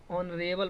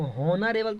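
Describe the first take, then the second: First: ऑनरेबल with silent h; correct pronunciation. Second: हॉनरेबल with the h sounded; wrong pronunciation. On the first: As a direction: say ऑनरेबल opening on the vowel. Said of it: "ऑनरेबल पढ़ेंगे". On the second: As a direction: say हॉनरेबल starting on an audible h. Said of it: "हॉनरेबल थोड़ी पढ़ेंगे". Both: Shown as a demonstration.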